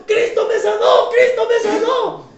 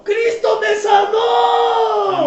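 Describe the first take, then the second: First: High, loud jubilant cry, second line slower; joyful shout. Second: High, loud and very slow, almost sung; drawn-out joyful shout. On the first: Healed woman leaping in the clinic, high joyful shout. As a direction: jump and shout your praise. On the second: Healed woman hugging the doctor, slow sung shout. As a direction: stretch the praise out like a song. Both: Retold or imitated.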